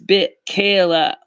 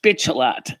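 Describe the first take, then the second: First: The name sounds like 'bit Kayla'. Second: The name sounds like 'bitch a lot'. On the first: The speaker calls it right. "No, it's bit Kayla. Like like Michaela" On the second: The speaker calls it wrong. "it's not pronounced bitch a lot"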